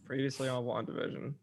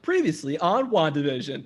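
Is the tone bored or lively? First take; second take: bored; lively. First: It is said in a bored, uncaring tone. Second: It is said in a lively, engaged tone.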